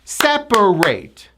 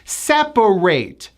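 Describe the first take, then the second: The two takes are said the same way.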